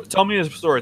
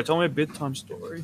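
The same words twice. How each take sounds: First: Said in the usual way. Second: Put-on softer, quicker child-like plea; soft bedtime plea. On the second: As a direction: ask sweetly like a kid at bedtime.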